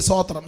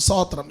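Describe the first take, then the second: The two takes are said the same way.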